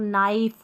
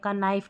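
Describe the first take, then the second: First: The word begins with an n sound. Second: The word begins with a k sound. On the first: The speaker calls it right. "हम पढ़ेंगे जैसे इसको नाइफ" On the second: The speaker calls it wrong. "का नाइफ नहीं पढ़ते"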